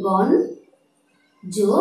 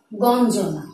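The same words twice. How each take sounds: First: গঞ্জনা stretched very slowly, nasal ন held; গঞ্জনা ধীরে ভেঙে উচ্চারণ; slowly broken down. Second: Said in the usual way. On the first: Shown as a demonstration. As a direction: split গঞ্জনা as গন্-জনা, slow. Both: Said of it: "উচ্চারণটি দিচ্ছি গঞ্জনা".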